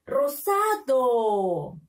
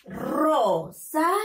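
First: Rosado slowly blended into one word, long falling DO; teacher joining ROSADO slowly with no gaps; syllables joined. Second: Rosado in three slow separate beats, RO, SA, DO; teacher's high, slow syllable-by-syllable Rosado. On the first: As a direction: read "Rosado" whole, stretching the last syllable. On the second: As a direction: sound out "Rosado" slowly and higher, with gaps. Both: Shown as a demonstration. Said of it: "¿Cómo se lee?".

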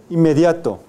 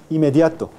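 First: Inmediato with both nasals sounded, loud; a teacher's loud model of inmediato with a doubled M; full nasal cluster. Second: Inmediato with one short M; merged nasal. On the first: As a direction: say inmediato firmly as "im-mediato". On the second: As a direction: say inmediato as "imediato". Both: Shown as a demonstration. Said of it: "O aún inmediato".

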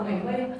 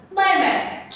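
First: Mẩy mây rattled off fast and soft as the common mistake; mock the wrong reading mẩy mây quickly; mẩy mây said wrong, tossed off fast; wrong tones. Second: Mây mẹ said clearly, pitched up as the right model; Mây mẹ, the proper reading; correct tones. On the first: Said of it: "chị không hiểu sao người cứ đọc là mẩy mây". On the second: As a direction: give Mây mẹ as the correct version. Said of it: "Nhiều người đọc là mẩy mây lắm". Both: Shown as a demonstration.

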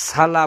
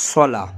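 First: সালা with a long open "saa"; wrong long a. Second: সলা with a short heavy "so"; correct short vowel. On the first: Teacher shows the common wrong সালা, long "saa". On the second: Teacher gives the correct সলা, short "so". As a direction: say সলা with no long a. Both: Shown as a demonstration. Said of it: "সালা না পড়ে পড়ব".

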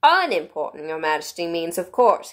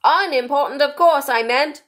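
First: Mildly deferential correction; very respectful. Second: High, loud kingly voice; King correcting himself. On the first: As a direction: correct a monarch politely. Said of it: "in a very respectful tone". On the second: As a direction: correct yourself in a ringing royal voice. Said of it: "the King hastily said". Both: A narrator's reading.

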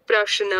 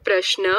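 First: "પ્રશ્ન" loosened between sh and n, prash-na; split-cluster pronunciation. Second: "પ્રશ્ન" with sh and n joined, prashna; written-form pronunciation. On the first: Teacher contrasting speech with spelling, "પ્રશ્ન" said as loosened prash-na. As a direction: pull sh and n slightly apart in "પ્રશ્ન". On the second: Teacher showing how it is written, "પ્રશ્ન" said as tight prashna. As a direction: run sh straight into n in "પ્રશ્ન". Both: Shown as a demonstration. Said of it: "લખવાની રીત અને બોલવાની રીતમાં ફેર".

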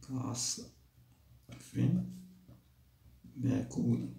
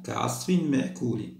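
First: A soft murmured repeat of كعصف مأكول; quiet echo. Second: Recited verse end. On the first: Shown as a demonstration. Teacher softly repeating the verse ending to pupils. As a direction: say كعصف مأكول again much softer. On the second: Acted. Teacher finishing the surah aloud for the class. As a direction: draw out مأكول in a full reciting voice.

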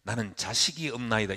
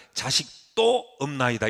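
First: Said in the usual way. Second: "자식도"의 '도'를 힘주어 길게 늘이기; "자식도"에서 '도'에 무게를 싣고 천천히; '도' 강조. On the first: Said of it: "이렇게 읽으셔야 훨씬". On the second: Shown as a demonstration. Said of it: "이렇게 읽으셔야 훨씬 마음에 착 달라붙습니다". ("자식도"의 '도'를 길게 강조)

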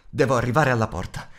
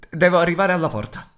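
First: Said in the usual way. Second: Higher, louder, more pressing; urgent repeat. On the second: Acted. Bilbo urging himself toward the door amid the orcs, higher louder urgent. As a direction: say it again as panic rises.

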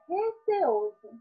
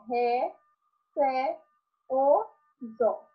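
First: Said in the usual way. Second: "Ré, cé, o, zó" as four separate syllables. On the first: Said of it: "percebe que nós falamos em sílaba separada". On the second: Shown as a demonstration. Teacher showing pupils separate syllables, syllable by syllable. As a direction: break it into "Ré", "cé", "o", "zó", pausing after each. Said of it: "em sílaba separada".

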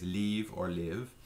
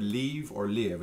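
First: "leave or live" drawn out slowly, each word clear; slow demo. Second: Said in the usual way. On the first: Shown as a demonstration. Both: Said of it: "It's pronounced both ways".

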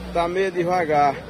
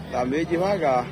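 The two takes are said the same way.

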